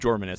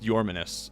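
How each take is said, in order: First: The name begins with a J sound. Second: The name begins with a Y sound. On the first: The speaker calls it wrong. "You don't pronounce it Jorminus" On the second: The speaker calls it right. "it's Yorminus"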